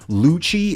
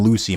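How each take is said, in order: First: The name ends with a 'chee' sound. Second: The name ends with a 'see' sound. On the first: The speaker calls it right. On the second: The speaker calls it wrong.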